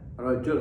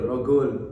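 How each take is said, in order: First: The middle consonant is a j sound. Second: The middle consonant is a hard g sound.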